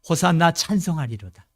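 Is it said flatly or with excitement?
flatly. It is said flatly, without feeling.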